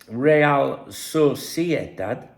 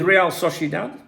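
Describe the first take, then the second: First: It is said with a Spanish accent. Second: It is said with an English accent.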